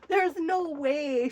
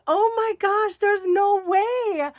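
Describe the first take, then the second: First: Said in the usual way. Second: Excited disbelief. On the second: Retold or imitated. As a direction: cry out that it can't be true. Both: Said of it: "I'm like".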